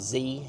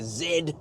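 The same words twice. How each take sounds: First: The letter is said the American way, as zee. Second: The letter is said the Australian way, as zed.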